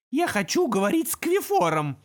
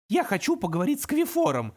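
First: Louder, surer imp demand; louder, confident. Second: Mild tremble, higher imp voice; trembling voice. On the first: Imp repeating his demand, louder. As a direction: say it firmly. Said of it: "уже громче и уверенней". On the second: Imp daring to speak to the demon, shakily. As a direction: ask timidly. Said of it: "дрожащим голосом". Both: Acted.

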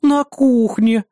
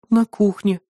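First: На кухне drawn out slow and higher, mimicking; mocking imitation. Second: Said in the usual way. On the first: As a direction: parrot На кухне back mockingly. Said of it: "передразнила соседка". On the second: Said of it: "виновато опустив взгляд".

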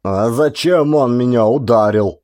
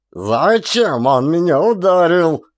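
First: A touch of a tearful whine; whiny. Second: Much higher, slower, loud yell. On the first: Hurt soldier whines to the corporal. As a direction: whimper it, holding your head. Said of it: "Плаксиво схватившись за голову". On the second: Hurt soldier yells at the corporal. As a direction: roar it out, tearing your shirt. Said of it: "заорал он". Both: A narrator's reading.

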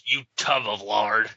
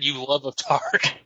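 First: Said in the usual way. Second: "love of tard" said with the sounds swapped, a bit slow; mock misreading. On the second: Shown as a demonstration. A host redoing his own misreading "love of tard" as a joke. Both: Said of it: "I just want dyslexic".

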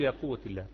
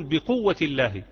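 First: Said in the usual way. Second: بقوة punched a bit louder with a falling close; stress on بقوة. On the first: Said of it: "لا، لا يصح". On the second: Shown as a demonstration. Teacher correcting students, stressing بقوة firmly. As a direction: lean on بقوة to correct the wrong form. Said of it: "إنما تقول".

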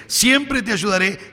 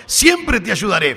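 First: Siempre drawn out and lifted, slowly; stress on siempre. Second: Said in the usual way. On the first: Shown as a demonstration. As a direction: lean on the word siempre. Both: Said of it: "fíjese el siempre".

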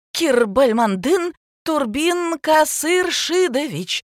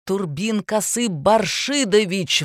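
First: Slow, high, careful "Кирбальмандын Турбин Касыршидович"; laborious reading of "Кирбальмандын Турбин Касыршидович"; halting name reading. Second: Slow, stressed "Касы Баршидович" with a falling end; outraged, pointed "Баршидович"; indignant correction. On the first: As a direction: spell out "Касыршидович" syllable by syllable from the paper. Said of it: "уставилась на листок". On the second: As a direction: snap back "Турбин Касы Баршидович" syllable by syllable. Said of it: "взвился препод". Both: A narrator's reading.

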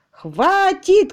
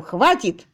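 First: High, loud yelled enough; shout. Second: Mock yell. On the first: Acted. Tutor yelling at his employer that he has had enough. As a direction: bark it out at full voice. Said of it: "кричал он". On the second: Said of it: "заорав при этом".

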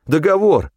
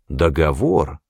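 First: High-pitched crony voice; eager agreement. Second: Lower, drawn-out questioning echo; slow repeat. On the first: Федька accepting the hunter's terms, high and eager. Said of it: "согласился Федька". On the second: Hunter echoing the crony's claim of a deal, slow and low. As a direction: repeat it slowly and sceptically, low. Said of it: "медленно повторил я". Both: A narrator's reading.

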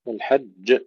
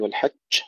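First: والحج with a firm جيم, not a شين; correct pronunciation. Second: والحج with the جيم slipping toward شين; wrong والحج; wrong pronunciation. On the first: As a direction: end والحج cleanly on the جيم. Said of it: "أن لا تتحول إلى شين". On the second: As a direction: let والحج drift to a شين sound. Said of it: "لا نقول والحج". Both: Shown as a demonstration.

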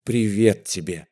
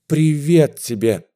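First: Said in the usual way. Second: Привет тебе repeated with mounting fervour; rising excitement. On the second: A narrator's reading. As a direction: swell the second привет тебе with feeling. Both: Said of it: "от волнения заикаясь".

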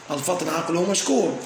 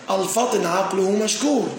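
First: Said in the usual way. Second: Slow example reading. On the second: Shown as a demonstration. Teacher reading the example sentence to students, slow and deliberate. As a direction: read the example slowly and deliberately. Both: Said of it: "لو قلنا".

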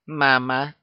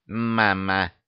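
First: Put-on high happy baby squeal; delighted little cry to the dragon; joyful squeak. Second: A hint of baby stubbornness, no squeak; mildly obstinate child, insisting; stubborn insistence. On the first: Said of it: "радостно пискнула добыча". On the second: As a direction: plant the word and refuse to budge. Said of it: "упрямо заявила Роксана".

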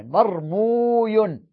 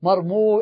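First: مرموي said slowly, with the و and the final ي clear; self-correction. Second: Said in the usual way. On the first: Shown as a demonstration. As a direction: correct yourself, spelling out مرموي. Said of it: "عفوًا". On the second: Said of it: "عفوًا، مرموي".

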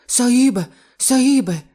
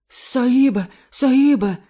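First: High, loud panicked gasps; terrified, still out of breath; gasping wheeze. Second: High, loud panicked gasps; gasping wheeze. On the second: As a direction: gasp it out in terror, out of breath. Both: Acted. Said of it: "прохарчав норець і, хапаючи ротом повітря".

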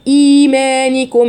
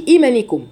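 First: Slow chanted إيمانكم with a long opening ee; مد طبيعي. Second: Quick إيمانكم with a short opening i; مد ناقص. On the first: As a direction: hold the first vowel of إيمانكم firmly. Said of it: "ده مد طبيعي". (إيمانكم بمد الياء) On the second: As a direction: cut the long vowels from إيمانكم. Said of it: "ما أقولش إيمانكم". (إيمانكم سريعة بلا مد) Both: Shown as a demonstration.

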